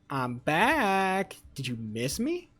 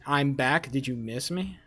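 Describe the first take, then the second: First: It is read with fitting feeling. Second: It is read flatly, without feeling.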